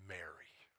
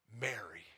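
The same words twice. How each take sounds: First: Whispered name, soft and loving; tender whisper. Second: Said in the usual way. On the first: Acted. Jesus calling Mary by name, a tender whisper. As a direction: breathe her name gently. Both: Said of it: "in only the tone that the Savior".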